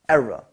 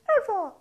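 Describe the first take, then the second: First: It is said in a normal voice. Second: It is said in a high falsetto voice.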